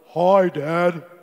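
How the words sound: The voice is very deep and low. The speaker's voice has matured. "his voice dropped like two octaves"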